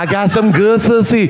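It is said with a gappy, lisping mouth. The speaker calls it right. "because she was missing her two front teeth. It was all like"

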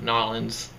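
It is said in a New Orleans accent.

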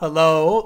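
Hello is said tentatively, like searching for someone. The speaker calls it right. "you change your tone, like you're trying to get"

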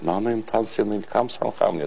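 It is said softly, in a southern Korean accent. "На юге там помягче говорят"

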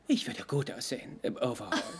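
It is said imitating another character's voice. The speaker calls it right.

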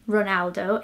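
The name is pronounced the English way. This is how English speakers know the name. "I wouldn't say Ronaldo if I was talking to a Brazilian person"

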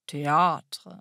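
The A is stretched in an exaggerated, affected way. "indem man den Accent Circonflex besonders übertrieben ausspricht"

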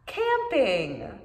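It is said in a happy voice.

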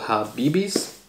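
The name is said with a Brazilian Portuguese accent.

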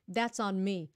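It is said as an admitting statement. The speaker accepts the fault. "là mình nhận"

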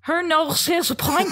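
It is spoken in a Scouse accent. "Now, Scouse"

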